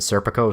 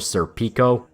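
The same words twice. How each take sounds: First: The name is said in a plain English way. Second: The name is said in a European, Italian-like way.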